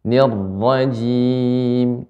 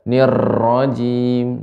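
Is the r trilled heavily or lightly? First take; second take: lightly; heavily. First: The r has a light, smooth trill. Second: The r has a heavy, strong trill. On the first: The speaker calls it right. "ra ini getarannya sedikit dan halus" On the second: The speaker calls it wrong.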